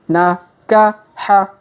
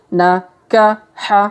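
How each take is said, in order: The two takes are said the same way.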